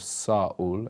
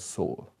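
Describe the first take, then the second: First: It is said the original, Greek-derived way. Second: It is said the common English way. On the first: The speaker calls it right. "instead of Saul" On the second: The speaker calls it wrong. "we mispronounce it"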